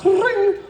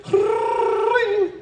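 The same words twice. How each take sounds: First: Short, high trilled ring; brief high-pitched bell trill; short phone ring. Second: Long, high trilled ring; drawn-out high-pitched bell trill; long phone ring. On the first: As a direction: mimic one quick high telephone ring. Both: Retold or imitated. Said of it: "a short and a long".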